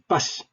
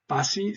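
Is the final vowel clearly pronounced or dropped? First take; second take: dropped; pronounced. First: The final vowel i is swallowed and dropped. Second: The final vowel i is clearly pronounced. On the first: "Sometimes I just say pas, and I kind of swallow the, the I" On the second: "I don't say uh, pasi"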